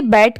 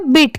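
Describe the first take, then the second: First: "बैट" with an open e vowel; "बैट" with the open vowel, not a short i; standalone BET sound. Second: "बिट" with a short i vowel; "बिट" with short i, as at the start of between; BET sounded bit. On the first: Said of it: "वहां पर उसकी sound क्या आती". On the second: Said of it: "यहाँ पर इसकी sound क्या आ रही है". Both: Shown as a demonstration.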